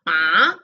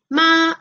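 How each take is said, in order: First: "ma" dipping low, then rising; Mandarin third tone. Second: "ma" held on one level pitch; Mandarin first tone. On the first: Teacher contrasting horse with mother, dip and rise. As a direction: drop "ma" down and bring it back up. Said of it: "ma es caballo". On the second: Teacher contrasting mother with horse, level tone. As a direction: keep "ma" sustained and even. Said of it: "ma es mamá". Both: Shown as a demonstration.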